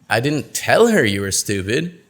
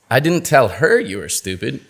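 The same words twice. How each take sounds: First: The word 'tell' carries the main stress. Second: The word 'her' carries the main stress. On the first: It was communicated some other way. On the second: It was told to someone else.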